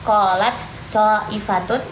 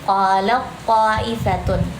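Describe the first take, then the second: First: The first word's final t is heard separately. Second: The first word's final t merges into the next. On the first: The speaker calls it wrong. "Jadi bukan qalat qalat ta'ifatun" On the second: The speaker calls it right. "tapi qala ta'ifatun"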